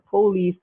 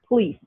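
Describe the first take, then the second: First: The first vowel is pronounced fully. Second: The first vowel is dropped entirely. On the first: "a vowel is deleted" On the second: "becomes police"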